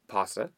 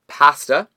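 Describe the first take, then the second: First: It is said the way Italian says it. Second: It is said with an anglicized vowel. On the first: The speaker calls it right. "that's the way it's said in the language that the word is" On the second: The speaker calls it wrong. "What do we say wrong?"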